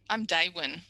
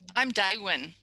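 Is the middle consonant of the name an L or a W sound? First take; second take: W; W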